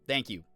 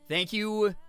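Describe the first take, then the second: First: The thanks sounds sarcastic. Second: The thanks sounds sincere. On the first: The speaker calls it wrong. "I know that sounded so sarcastic" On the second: The speaker calls it right. "Let me try again"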